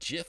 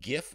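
First: It starts with a soft J-like sound. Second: It starts with a hard G sound. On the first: "like the peanut butter" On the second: "with a hard G"

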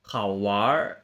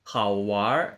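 Both takes have the same delivery.

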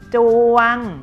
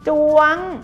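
First: The syllable is said on a level mid tone. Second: The syllable is said on a high tone.

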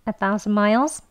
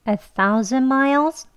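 First: The phrase is said quickly and smoothly. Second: The phrase is said slowly and carefully. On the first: "빨리 발음하시면요" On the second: "천천히 같이 해볼게요"

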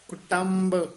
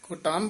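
First: The word ends with a clear b sound. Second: The word ends without a clear b sound. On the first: The speaker calls it right. "ਕੁਟੰਬ ਬੱਬੇ ਨਾਲ ਉਚਾਰਨ ਕਰਨਾ" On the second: The speaker calls it wrong. "ਕੁਟੰਬ ਨਹੀਂ ਕਹਿਣਾ"

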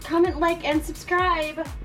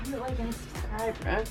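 First: It is said earnestly, with heartfelt feeling. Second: It is said casually, without much feeling.

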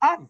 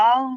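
First: The word ends in a clear n sound. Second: The word ends in a nasal ng sound. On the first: The speaker calls it right. "নুনটাকে স্পষ্ট করে পড়বো।" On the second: The speaker calls it wrong. "আমরা কিন্তু এখানে আং বলবো না"

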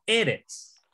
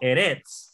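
First: The stress is on the first syllable. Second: The stress is on the last syllable. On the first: The speaker calls it right. "sino eretz" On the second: The speaker calls it wrong. "No eretz"

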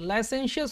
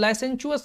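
First: The middle consonant is a 'sh' sound. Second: The middle consonant is a 'ch' sound. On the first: The speaker calls it right. "लाइसेंशियस होता है" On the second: The speaker calls it wrong. "लाइसेंचुअस नहीं होता"

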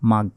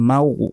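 First: The syllable ends in a hard g. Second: The syllable ends in a soft rounded gh. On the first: The speaker calls it wrong. "এটা উচ্চারণ হবে না" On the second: The speaker calls it right. "বলতে হবে মাউ, ঠোঁটটা গোল হয়ে আসবে"

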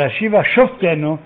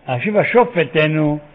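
First: The second word is said as 'shoftenu'. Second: The second word is said as 'shofteinu'. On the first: It asks to be judged directly. "שפוט אותנו" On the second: It asks for our judges to be restored. "שופטים שלנו"

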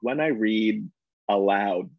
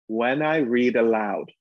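First: Aloud starts with a hard glottal catch. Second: Aloud starts smoothly, with no glottal catch. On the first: "I often use the glottal sound when I read aloud" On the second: "when I take away that glottal sound, when we teach actors, we call it easy onset"

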